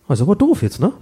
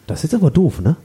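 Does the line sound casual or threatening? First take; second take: casual; threatening. First: It sounds casual and offhand. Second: It sounds creepy and threatening.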